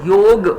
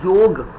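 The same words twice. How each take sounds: First: The word ends on the consonant g. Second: The word ends on the consonant g.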